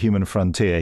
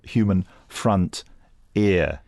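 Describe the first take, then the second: First: The last part is said as one word. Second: The last part is said as two words. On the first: It names a frontier. The speaker calls it right. "not the human frontier" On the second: It names an ear on the front of the head. The speaker calls it wrong. "he called it the human, human front ear. Like an ear on the front"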